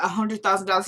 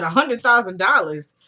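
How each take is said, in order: First: Said in the usual way. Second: Louder, incredulous echo; mock disbelief. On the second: [name] questioning Randall's offer, mock disbelief. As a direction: repeat the sum as an astonished question.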